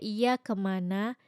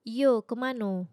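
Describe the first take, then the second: First: The first word ends with an 'a' sound. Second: The first word ends with an 'o' sound. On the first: "kayak iya kemana" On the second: "itu diganti a-nya jadi o"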